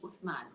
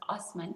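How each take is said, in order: First: The middle consonant is a th sound. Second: The middle consonant is an s sound. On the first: This is the Arabic form of the name. "we could pronounce it in Arabic form" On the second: This is the Ottoman form of the name. "the Ottoman period, the pronunciation was Osman"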